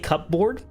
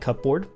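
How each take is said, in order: First: Cup and board are said as separate parts. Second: The word is said quickly as one blended unit. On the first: "that sounds unnatural ... separating cup and board" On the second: "speed it up"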